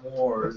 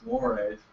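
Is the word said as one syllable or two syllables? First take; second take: one syllable; two syllables. First: The word is said as one syllable, like 'moors'. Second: The word is said as two syllables, 'mor-ays'. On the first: The speaker calls it wrong. "it's not Moors" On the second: The speaker calls it right. "it's Mores"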